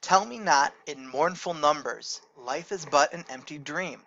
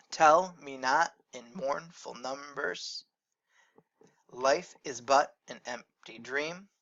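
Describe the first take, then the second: First: Steady, even recitation of the verse; poem reading. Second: Slow, each stressed syllable hit in turn; beat marked out. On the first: Teacher reads Longfellow to the class, even recitation. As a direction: read it out like a poem. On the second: Teacher shows the class the stressed beats, slow and marked. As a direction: tap out the trochees as you say it. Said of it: "We have that stressed to unstressed pattern". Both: Shown as a demonstration.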